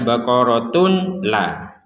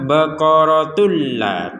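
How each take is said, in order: First: The n sound is pronounced clearly before l. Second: The n sound merges into a doubled l. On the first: The speaker calls it wrong. "jangan sampai dibaca" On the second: The speaker calls it right. "sama-sama dimasukkan"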